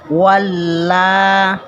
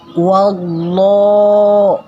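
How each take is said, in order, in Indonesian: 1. Huruf L dibaca tipis dan ringan. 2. Huruf L dibaca tebal dan gelap. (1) "bukan walla" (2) "jadi dibaca tebal ini lo"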